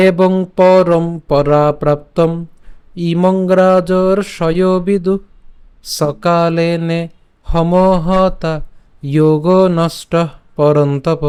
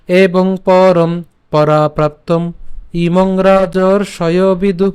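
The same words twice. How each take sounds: First: Calm, measured shloka reading; full verse chanted slowly; slow full recitation. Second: Measured, emphatic shloka reading; verse read slowly with force on পরম; slow recitation again. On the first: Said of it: "শুরু করে যদি পাঠ করি". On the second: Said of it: "আমি আবার বলছি". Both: Shown as a demonstration.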